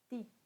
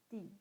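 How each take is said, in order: The two takes are said the same way.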